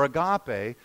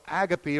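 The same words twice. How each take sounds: First: "agape" stressed on the middle syllable, ending in ay; Greek-style "agape", ah-GAH-pay; second pronunciation of agape. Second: "agape" stressed on the first syllable, ending in ee; anglicized "agape", AG-uh-pee; first pronunciation of agape. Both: Shown as a demonstration. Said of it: "this word that many of you know".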